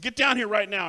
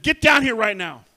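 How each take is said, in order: First: Louder firm order, a bit less forceful; mother repeating her order to the child; firm command. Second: Much louder stern order, higher; mother ordering her daughter down, loud and sharp; angry command. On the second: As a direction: bark it at a misbehaving child. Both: Retold or imitated.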